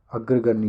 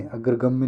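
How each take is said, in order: First: Said in the usual way. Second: अग्रगम्य ending in -gamya. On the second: Shown as a demonstration. Teacher quoting the mistake, m sound in अग्रगम्य. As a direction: say अग्रगम्य with an m before ya. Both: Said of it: "अग्रगम्य नहीं होता".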